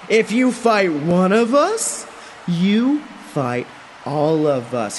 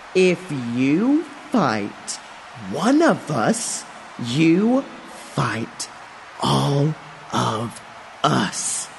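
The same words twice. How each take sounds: First: It is said at a normal pace. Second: It is said slowly and deliberately.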